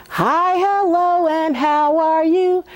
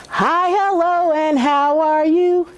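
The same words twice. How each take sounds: No difference in how they are said.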